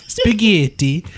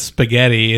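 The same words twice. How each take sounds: First: High-pitched mock Italian accent; Italian chef's accent. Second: Said in the usual way. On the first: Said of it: "with her accent, the way she says".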